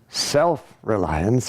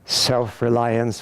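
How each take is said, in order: First: The word self is said with marked emphasis. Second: The word self is said plainly, without emphasis. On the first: Reliance on the divine higher Self. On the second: Reliance on the ordinary individual self.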